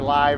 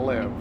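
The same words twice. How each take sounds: First: The vowel sounds like the one in 'five'. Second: The vowel sounds like the one in 'give'. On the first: The speaker calls it right. "L Y V E to get it to say live" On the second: The speaker calls it wrong. "instead of live"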